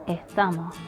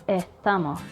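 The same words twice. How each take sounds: No difference in how they are said.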